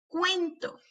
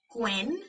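First: Said in the usual way. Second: "Cuento" as cuen, long pause, to; broken into syllables. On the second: Shown as a demonstration. Teacher helping hear each sound, syllable by syllable. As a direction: break "Cuento" in two. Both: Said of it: "quiero que las quiebres entre sílabas".

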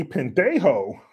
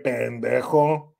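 First: "pendejo" said as pen-DAY-ho; "pendejo" in an anglicized accent, ending in a long "oh"; Americanized Spanish. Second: Slow, low "pendejo" with a Spanish throaty j; "pendejo" pronounced the Spanish way, j as a raspy h; proper Spanish. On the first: Acted. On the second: Retold or imitated. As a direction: draw out "pendejo" with pure Spanish vowels. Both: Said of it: "like, proper Spanish".

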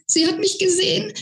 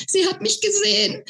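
First: Much higher squeak rising on mich; giddy panicked squeal, lift at the end. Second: Squeaking. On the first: Flo squeals that his fairy saw him, high and rising. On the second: Flo squeaks it again, high but fading. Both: Acted. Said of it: "quiekte er".

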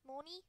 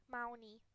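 First: Moni with an AW vowel, rising and soft as a question; trying a pronunciation. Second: Mounty with an OW vowel, falling flat as a statement; trying a pronunciation. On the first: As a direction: ask Moni quietly, "maw-nee", voice going up. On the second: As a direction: say Mounty like "mountie", settled, no question. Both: Shown as a demonstration. Trying out how to say the name.

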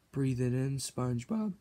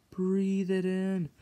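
First: Soft hushed urging; whisper-soft coaxing; soft coaxing to SpongeBob. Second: Drawn out slowly and softly; slow breathy-sounding invitation; slow dreamy. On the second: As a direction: stretch it out like a trance. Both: Acted. Coaxing SpongeBob to smell patty.

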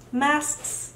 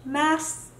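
Both takes have the same delivery.

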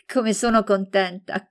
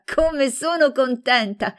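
First: Bright, eager greeting; gushing over her friend's arrival; happy exclamation. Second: Much higher, slower, overjoyed; delighted squeal. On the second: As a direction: let the joy peak on "sono". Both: A narrator's reading. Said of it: "fece grandi feste".

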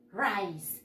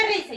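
First: "rice" as one syllable, "ryce", falling; English pronunciation. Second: "rice" quickly read in Spanish as "ree-seh"; as spelt. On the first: Teacher showing pupils how it is pronounced, "rice" softly as "ryce". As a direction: model "rice" softly with the English eye vowel. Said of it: "y se pronuncia". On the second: Teacher recalling how it is written, "rice" in Spanish spelling sounds. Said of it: "Se escribe rice". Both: Shown as a demonstration.

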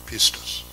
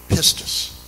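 First: "pistis" carefully spelled out as PIS-tis; Greek word pistis. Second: "pistis" said PIS-tis again, stress on the first syllable; "pistis" recalled as PIS-tis; Greek word pistis. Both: Shown as a demonstration. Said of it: "believe is the right way to pronounce it".

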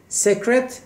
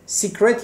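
First: سکرت said "sek-ret", pitched high; short "e" in سکرت, left hanging on a rise; secret with short e. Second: سیکرت said "SEE-kret"; long "ee" in the first syllable of سیکرت; secret with ee. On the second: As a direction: correct سکرت to "seek-ret". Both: Shown as a demonstration. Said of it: "البته تلفظش سیکرت هست".

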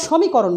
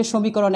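First: সমীকরণ with open ɔ, "shaw-mikoron"; Kolkata open vowel. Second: সমীকরণ with rounded o, "sho-mikoron"; Bangladeshi closed o. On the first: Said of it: "ওরা সমীকরণ বলে". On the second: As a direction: say সমীকরণ with first vowel closed to o. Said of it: "ওকার দিয়ে লিখেছি". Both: Shown as a demonstration.

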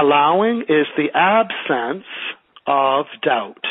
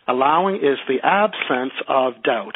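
First: Slow, deliberate, each word spaced out; slow dictation. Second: Slow dictation. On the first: Teacher repeating the sentence for a student, slow dictation. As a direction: dictate it so the class can write it down. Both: Shown as a demonstration. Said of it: "can you repeat that sentence again?".

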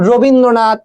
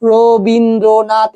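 First: Said in the usual way. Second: Rabindranath slowly, split into four separate syllables. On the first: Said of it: "আস্তে আস্তে করে". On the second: Shown as a demonstration. Teacher showing students how to count syllables in Rabindranath, slowly syllable by syllable. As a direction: sound out Rabindranath one slow syllable at a time. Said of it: "আস্তে আস্তে করে ... এভাবে করে উচ্চারণ করো".

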